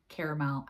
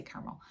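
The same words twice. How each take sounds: First: "caramel" said as care-a-mel, three syllables with an e in the middle. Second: "caramel" said as car-mel, two syllables, the middle vowel dropped. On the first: Vlogger trying out the other way to say "caramel", care-a-mel. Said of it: "however you say that word". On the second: Vlogger settling on her own "caramel", car-mel in two syllables. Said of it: "I just say caramel". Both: Shown as a demonstration.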